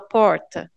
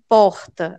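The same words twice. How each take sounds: First: The R is said with the tongue curled back. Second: The R is said without curling the tongue back. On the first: This is how people from the region say it. "a gente fala porta" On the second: This is not how people from the region say it. "a gente não fala porta"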